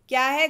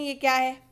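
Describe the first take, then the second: First: It is said in an angry tone. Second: It is said in a calm, normal tone.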